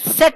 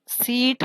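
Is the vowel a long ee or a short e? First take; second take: short e; long ee. First: The vowel is a short e, like 'set'. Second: The vowel is a long ee, like 'seat'. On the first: The speaker calls it wrong. "डेड होता है तो S E A T सेट होता है। इस तरह सेट नहीं होता" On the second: The speaker calls it right. "लेकिन S E A T सीट होता है"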